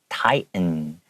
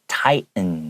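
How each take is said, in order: First: The middle T is silent. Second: The middle T is silent.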